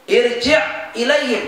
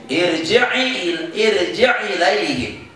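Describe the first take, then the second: First: Said in the usual way. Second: Slow "irji' ilaihim" as irji-'i-laihim; joined recitation. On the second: Shown as a demonstration. Teacher answers how to read it, slow and joined. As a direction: move the i onto the 'ain in "irji' ilaihim". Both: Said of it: "baca gimana?".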